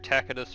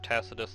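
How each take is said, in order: First: It uses the classical Latin pronunciation. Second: It uses the medieval Latin pronunciation. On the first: "classical versus medieval Latin pronunciation" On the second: "classical versus medieval Latin pronunciation"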